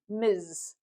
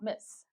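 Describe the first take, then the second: First: The word ends with a buzzing z sound. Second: The word ends with a hissing s sound. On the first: The speaker calls it right. "The pronunciation sounds like a Z" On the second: The speaker calls it wrong. "not Miss"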